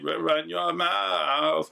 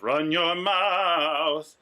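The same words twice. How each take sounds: First: The voice is rough and gravelly. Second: The voice is smooth and clean. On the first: "He's using that gravelly" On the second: "So instead of"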